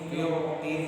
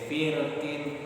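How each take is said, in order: First: The r sound is heavy and thick. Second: The r sound is light and thin. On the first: "Firqin itu dibaca tebal"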